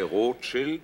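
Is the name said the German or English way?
German. It is said the German way.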